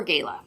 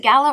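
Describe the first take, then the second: First: "gala" with the first syllable rhyming with "day"; long-a pronunciation. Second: "gala" with the flat a of "cat" in the first syllable; short-a pronunciation. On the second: Host asking which way to pronounce it, "gala" as GAL-uh. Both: Shown as a demonstration. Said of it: "Is it gala or gala?".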